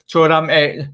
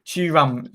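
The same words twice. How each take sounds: First: Thuram said like "Tor-dam", a bit louder; a first, wrong try at Thuram; stumbled name. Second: Thuram said like "Too-ram" with a falling tune; the careful second try at Thuram; corrected name. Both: Real, not acted. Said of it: "sorry, Jack, it's just triggered me".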